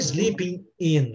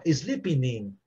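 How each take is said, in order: First: The two words are said separately. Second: The two words are linked together. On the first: The speaker calls it wrong. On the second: The speaker calls it right.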